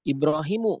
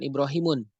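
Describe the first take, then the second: First: The word ends in a plain u vowel. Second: The word ends in a u followed by n. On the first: The speaker calls it right. "Ibrahimu bukan Ibrahimun" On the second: The speaker calls it wrong. "bukan Ibrahimun"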